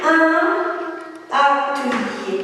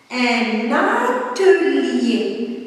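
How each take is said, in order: First: "un atelier" with a clear break, un and atelier kept apart; no liaison. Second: "Un atelier" said very slowly as "un-natelier", the N carried onto the A; with liaison. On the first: Teacher showing the class the wrong reading, without liaison. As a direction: say "un" then pause before "atelier", no N link. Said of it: "je ne vais pas lire". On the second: Teacher showing pupils the liaison, very slow and linked. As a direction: link the N of "Un" into "atelier", slow and clear. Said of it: "C'est ça la liaison". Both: Shown as a demonstration.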